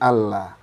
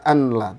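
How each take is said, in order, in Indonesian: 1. Bunyi n melebur menjadi bunyi l yang double. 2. Bunyi n diucapkan jelas sebelum l. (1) "tapi Allah" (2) "nggak boleh dibaca anla"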